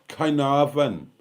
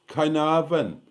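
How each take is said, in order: Both takes have the same delivery.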